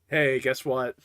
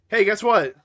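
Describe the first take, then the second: First: It is said in a subdued, somber tone. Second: It is said in a cheerful, joyous tone. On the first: Sad news is coming. The speaker calls it right. "So let's let's do take two" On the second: Good news is coming. The speaker calls it wrong. "I said that with way too joyous of an inflection"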